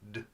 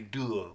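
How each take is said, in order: First: The d sound is short and clipped, no vowel. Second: The d sound is followed by an uh vowel. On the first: The speaker calls it right. "we say d, It's a very short sound, very hard sound" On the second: The speaker calls it wrong. "we don't say duh"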